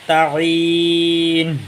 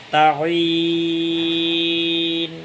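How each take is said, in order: First: তাঈন drawn out with the last sound turned to a breathy ha, shown as the mistake; wrong pronunciation. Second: তাঈন drawn very long and soft, fading like a gentle wave; soft like a water wave. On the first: Teacher showing students the wrong breathy ending of তাঈন. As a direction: stretch তাঈন so it ends in ha, the wrong way. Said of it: "শেষেরটা হা হয়ে গেল, ভুল". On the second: Teacher showing the correct soft ending of তাঈন. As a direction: let তাঈন roll out slowly and softly. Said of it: "একেবারে নরম পানির ঢেউয়ের মতো". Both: Shown as a demonstration.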